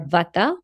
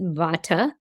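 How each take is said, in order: First: The word has a Sanskrit-style pronunciation. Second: The word has a Western-style pronunciation.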